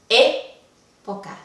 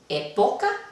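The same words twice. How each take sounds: First: The stress is on the first syllable. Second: The stress is on the middle syllable. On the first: The speaker calls it right. "¿Está en la antepenúltima?" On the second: The speaker calls it wrong. "¿Está en la penúltima?"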